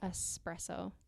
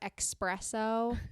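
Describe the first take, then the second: First: It starts with a plain 'es' sound. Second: It starts with an 'ex' sound. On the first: The speaker calls it right. "There's no X in there" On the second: The speaker calls it wrong. "I've seen people say"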